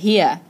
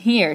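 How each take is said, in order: First: It is said in a Southern accent. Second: It is said in a standard, non-Southern accent.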